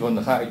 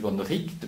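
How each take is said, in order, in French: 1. Le nom se prononce comme 'right' en anglais. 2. Le nom se prononce avec le son 'richt'. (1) "ça s'écrit von Wright" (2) "ça se dit von Richt"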